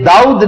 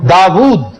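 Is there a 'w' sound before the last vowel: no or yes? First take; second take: no; yes. First: The vowels run together with no 'w' sound. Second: A clear 'w' sound comes before the 'u'. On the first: The speaker calls it wrong. "यह दाऊद नहीं है" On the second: The speaker calls it right. "वाव पर पेश है"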